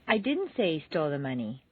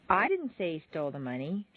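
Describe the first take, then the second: First: The stress is on the word didn't. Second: The stress is on the word I.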